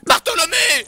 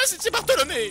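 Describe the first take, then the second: First: Shouts his own name, much louder, to correct it; loud, offended correction; indignant shout. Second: Said in the usual way. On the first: Acted. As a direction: bark the name back, offended.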